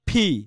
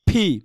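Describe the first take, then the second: First: The P is said with a strong puff of air. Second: The P is said with a strong puff of air.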